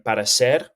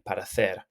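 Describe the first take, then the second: First: Parecer with an s sound for the c; Latin American pronunciation. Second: Parecer with a th sound for the c; Castilian parecer, c lisped as th; Castilian pronunciation. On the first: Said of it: "If you're in Latin America, that you will say this like parecer with the s pronunciation". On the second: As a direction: say the c in parecer as th, as in Spain. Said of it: "but in Spain, uh, in most parts of Spain anyway, you would say parecer". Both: Shown as a demonstration.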